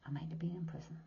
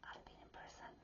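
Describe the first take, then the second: First: Quieter, half-voiced correction; soft near-whisper. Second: Hushed confession; whisper. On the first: Correcting herself to viewers, a hushed aside. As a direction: pull it back to a hush. Softened repeat of confession. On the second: Telling Sagittarians her past, a whispered confession. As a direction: whisper it like a secret. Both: Real, not acted.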